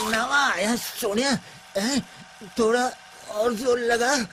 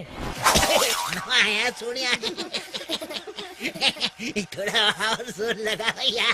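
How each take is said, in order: First: It is said in a crying voice. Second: It is said while laughing.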